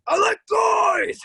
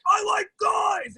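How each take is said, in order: First: Loud, slow, insistent shout; over-the-top loud announcement; shouted declaration. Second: Shouted declaration. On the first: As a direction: yell it to convince yourself. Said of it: "I want you all to know that I like guys". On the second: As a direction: yell it like you're trying too hard. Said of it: "and I was like". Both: Retold or imitated.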